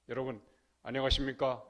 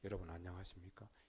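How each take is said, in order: First: The voice is strong and full from the belly. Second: The voice is weak and thin without power. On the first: The speaker calls it right. "아랫배에서 우러나오는 소리" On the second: The speaker calls it wrong. "힘없는 소리 하지 말고"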